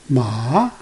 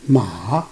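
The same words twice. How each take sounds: First: The pitch rises from low to high. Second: The pitch dips down and then rises. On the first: It means hemp. "Start from low to high" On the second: It means horse. "Coming down and then go up"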